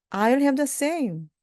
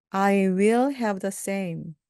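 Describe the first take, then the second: First: "I'll have the same" with "I'll" merged; higher-pitched "I'll have the same", contracted; contracted form. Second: Slow "I will have the same", "will" separate; full form. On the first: Teacher has learners repeat the short form, contracted "I'll". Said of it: "또는". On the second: Teacher has learners repeat, uncontracted "I will". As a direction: give "will" its own beat in "I will have". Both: Shown as a demonstration.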